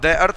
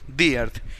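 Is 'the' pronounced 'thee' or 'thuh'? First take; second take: thuh; thee. First: 'The' is said with a short 'thuh' sound. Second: 'The' is said with a long 'thee' sound. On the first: The speaker calls it wrong. "यहां हम द earth ना पढ़ के" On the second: The speaker calls it right. "क्या पढ़ेंगे, दी अर्थ"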